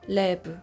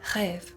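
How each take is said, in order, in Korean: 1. 한국식 발음이에요. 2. 프랑스식 발음이에요. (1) "한국어로 랩이라고 써요" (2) "다르죠"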